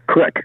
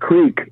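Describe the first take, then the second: First: The vowel is a short i sound. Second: The vowel is a long ee sound. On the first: This is the regional Nebraska pronunciation. "in Nebraska is pronounced crick" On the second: This is the standard pronunciation. "the word creek"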